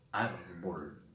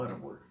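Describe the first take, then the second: First: "árbol" stretched out, weight on the opening ár; stress on first syllable. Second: Said in the usual way. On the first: Shown as a demonstration. Teacher shows the penultimate accent, stressed ár in "árbol". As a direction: say "árbol" slowly, leaning on ár. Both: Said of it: "está acentuada en la penúltima sílaba".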